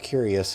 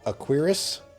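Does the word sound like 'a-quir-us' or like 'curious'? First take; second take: curious; a-quir-us. First: The word is said like 'curious'. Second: The word is said like 'a-quir-us'. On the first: The speaker calls it wrong. "I've been calling it a Curious, but then I found out I was saying it wrong" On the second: The speaker calls it right. "I guess it's called a Aquirus"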